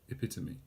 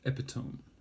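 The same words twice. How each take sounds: First: The word is said with four syllables. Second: The word is said with three syllables. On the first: The speaker calls it right. "split up into one, two, three, four syllables" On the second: The speaker calls it wrong. "What it's not is"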